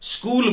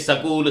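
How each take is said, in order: First: The s and k are joined directly. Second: A short vowel splits the s and k. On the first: The speaker calls it right. "स्कूल बोलना है" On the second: The speaker calls it wrong. "सकूल सटेशन सलोट बोलना शुरू करता है"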